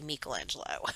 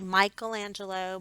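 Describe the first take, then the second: First: The first i sounds like 'ee'. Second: The first i sounds like 'eye'. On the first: This is how people say it in Italy. "they say Michelangelo" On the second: This is the common non-Italian way to say it. "a lot of people say Michelangelo"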